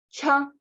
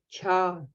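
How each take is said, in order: First: The syllable has a high tone. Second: The syllable has a low tone. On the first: "тоже высокий тон" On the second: "низкий тон с небольшим придыханием"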